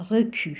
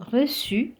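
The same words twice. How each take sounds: First: Recu with a hard K, "ruh-kü"; C misread as K. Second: Reçu with an S sound, "ruh-sü"; cedilla as S. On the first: Teacher showing the mistake to avoid, recu with K. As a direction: recu mispronounced with K in the middle. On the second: Teacher contrasting for learners, reçu said with S. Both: Shown as a demonstration. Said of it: "and not".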